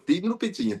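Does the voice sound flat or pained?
pained. The voice sounds pained and emotional. The speaker calls it right. "इस आवाज में दर्द होगा तभी मजा आएगा"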